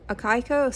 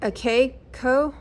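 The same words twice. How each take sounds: First: Akiko with a KAI middle, rhyming with sky; second name attempt. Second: Akiko with a KAY middle, slow and questioning; tentative name attempt. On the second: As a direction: sound out Akiko haltingly as "uh-KAY-ko". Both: Real, not acted. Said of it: "Probably gonna mess up her name".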